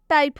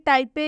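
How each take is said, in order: First: The word ends on the p sound, no vowel. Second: The word ends with an added short e vowel. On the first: The speaker calls it right. "इसका सही उच्चारण टाइप होगा" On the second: The speaker calls it wrong. "ना कि टाइपे"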